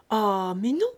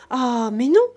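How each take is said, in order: First: A loud "Ah, mais non" with the "non" rising; first "Ah, mais non" firm and loud, rising on "non"; firm furious refusal. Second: A much louder "Ah, mais non", rising on "non"; second "Ah, mais non" much louder, nearly shouted; louder furious refusal. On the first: Farm wife rejecting the offer, angry but held back. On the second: Farm wife repeating her refusal, even angrier. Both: A narrator's reading. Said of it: "toute furieuse".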